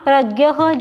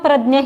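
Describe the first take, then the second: First: It is pronounced the Hindi way. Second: It is pronounced the Marathi way. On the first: "जो आप हिंदी में बोलते हैं" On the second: "शुद्ध मराठी जैसे बोले तो"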